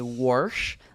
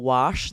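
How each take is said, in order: First: An extra R sound is added in the word. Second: The word has no R sound.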